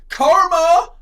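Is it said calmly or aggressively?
aggressively. It is said aggressively and forcefully.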